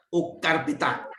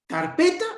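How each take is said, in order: First: "o carpeta" slow and falling, weighed as the other choice; contrasting stress option. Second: "Carpeta" rising high and loud, asked as one option; questioning stress test. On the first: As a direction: offer "o carpeta" slowly, settling down. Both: Shown as a demonstration. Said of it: "¿Cuál es?".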